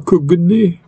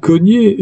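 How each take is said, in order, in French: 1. Le g et le n se prononcent comme des sons séparés. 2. Le gn se prononce comme un seul son ny. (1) "non pas" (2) "On dit"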